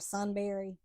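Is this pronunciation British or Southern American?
Southern American. It is said with a Southern American pronunciation. "Southerners, we're going to say Sunbury"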